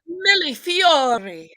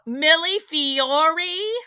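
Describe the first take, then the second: First: It is said with an Italian accent. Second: It is said with a Southern accent.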